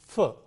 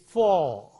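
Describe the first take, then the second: First: The vowel is reduced and quickly said. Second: The vowel is full and clearly pronounced. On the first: "the weak form is for" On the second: "The strong form is for"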